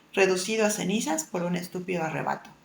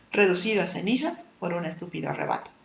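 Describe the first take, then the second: The two takes are said the same way.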